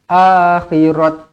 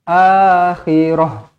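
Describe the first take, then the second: First: The word ends with a t sound. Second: The word ends with a soft h sound. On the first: The speaker calls it wrong. "jangan akhirat. Jangan macam tu pula" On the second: The speaker calls it right. "kita tukarkan huruf ta ini menjadi huruf ha mati"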